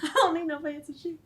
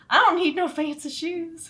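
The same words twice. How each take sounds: First: Put-on higher Southern kid voice through laughs; little Kayla sassing in Southern accent. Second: Put-on high, laughing Southern kid voice; Southern accent. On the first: Ten-year-old Kayla with mom, Southern accent. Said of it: "ten-year-old Kayla". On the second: Refusing shoes while shopping, laughing Southern accent. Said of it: "Southern accent".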